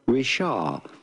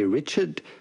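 First: The name ends without a D sound, French style. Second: The final D sound is pronounced, English style. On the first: The speaker calls it right. "but rather" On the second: The speaker calls it wrong. "Do not pronounce the D to Richard. It's not like in English, you do not say"

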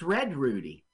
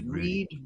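First: The first name has a short 'e' vowel. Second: The first name has a long 'ee' vowel. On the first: This is how the character says his own name. "he pronounces it Red" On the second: This is how the name is written. "it says Reed Rudy"

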